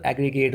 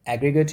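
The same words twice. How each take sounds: First: एग्रीगेट ending in a full long "gate"; verb-form pronunciation. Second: एग्रीगेट with a short "gut" ending; noun-form pronunciation. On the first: Teacher contrasting the verb reading, full "gate" ending in एग्रीगेट. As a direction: give the last syllable of एग्रीगेट a clear "ay" vowel. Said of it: "जब verb की तरफ पढ़ेंगे तो". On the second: Teacher reading both noun and adjective alike, schwa ending in एग्रीगेट. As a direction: keep the last vowel of एग्रीगेट a weak schwa. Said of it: "पढ़ेंगे दोनों को एग्रीगेट ही". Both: Shown as a demonstration.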